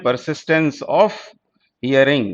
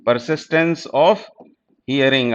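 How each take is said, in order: First: Said in the usual way. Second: Persistence of, each word dragged out slowly; drawn-out teacher repeat so students catch the term; very slow, spelled out. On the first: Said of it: "persistence of hearing (slowed repeat)". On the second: Shown as a demonstration. Teacher slowly repeating the term for students. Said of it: "repeated slowly for students".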